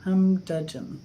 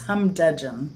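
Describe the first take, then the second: First: The word is said with a d after hum. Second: The same.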